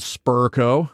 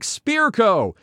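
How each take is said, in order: First: The first syllable sounds like spur. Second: The first syllable sounds like spear. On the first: The speaker calls it wrong. "Versions of it wrong included Spurco" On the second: The speaker calls it right. "It's pronounced like Spearco"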